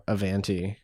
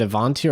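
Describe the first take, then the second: First: "Avanti" with a short A in the middle, uh-VAN-tee; alternative pronunciation. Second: "Avanti" with an open AH in the middle, ah-VAHN-tee; pronunciation option. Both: Shown as a demonstration. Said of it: "is it Avanti or Avanti".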